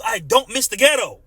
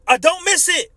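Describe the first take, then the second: First: Said in the usual way. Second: "miss" pitched higher and hit hard; stress on miss. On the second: Real, not acted. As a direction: lean on the word "miss".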